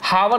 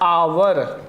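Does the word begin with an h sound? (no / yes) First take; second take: yes; no. First: The word begins with an audible h sound. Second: The word begins with a vowel, no h sound. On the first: The speaker calls it wrong. "हावर नहीं पढ़ा जाता क्योंकि इसमें एच silent होता है" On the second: The speaker calls it right. "इसको क्या पढ़ा जाता है? आवर"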